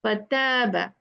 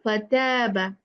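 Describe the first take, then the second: No difference in how they are said.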